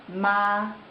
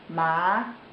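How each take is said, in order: First: It is said with the first Mandarin tone. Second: It is said with the second Mandarin tone. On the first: "The first tone is ma" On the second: "Second tone ma"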